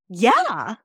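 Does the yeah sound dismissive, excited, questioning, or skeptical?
excited. It is said with great excitement. Something exciting is being shared. "The first one was super excited"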